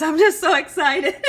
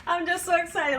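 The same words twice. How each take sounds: First: Laughing it out, loud and giddy; bursting with giddy laughter; excited. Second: Said in the usual way. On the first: Real, not acted. Cook telling viewers she's thrilled, laughing.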